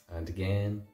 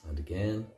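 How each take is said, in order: The two takes are said the same way.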